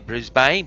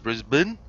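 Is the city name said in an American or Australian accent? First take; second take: American; Australian. First: The name is said with an American accent. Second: The name is said with an Australian accent. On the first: This is how outsiders say it. The speaker calls it wrong. "as the Americans would say" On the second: This is how locals say it. The speaker calls it right. "but it's Brisbane"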